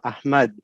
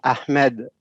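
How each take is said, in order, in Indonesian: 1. Vokal kedua terdengar seperti A terbuka. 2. Vokal kedua terdengar lebih dekat ke E.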